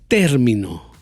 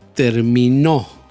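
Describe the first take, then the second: First: The stress is on the first syllable. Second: The stress is on the third syllable. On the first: "Ahí puse el golpe de voz en la primera sílaba" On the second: "Ahí puse el golpe de voz en la tercera sílaba"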